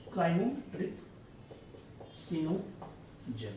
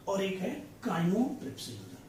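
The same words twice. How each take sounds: First: Chymotripsinogen drawn out syllable by syllable, softer; very slow dictation. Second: Said in the usual way. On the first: Shown as a demonstration. Teacher slowly dictating chymotripsinogen for students' notes. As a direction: crawl through chymotripsinogen for writing it down. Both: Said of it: "मैं आपको यहाँ पे लिखता हूँ".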